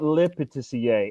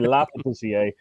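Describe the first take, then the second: First: The first word is said like 'le'. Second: The first word is said like 'la'. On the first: The speaker calls it wrong. "I call it Le Patissier. ... So I've been saying it wrong forever" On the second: The speaker calls it right. "So it's actually La Patissier"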